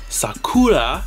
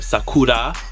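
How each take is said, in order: First: The r is an ordinary English r sound. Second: The r sounds close to an l sound.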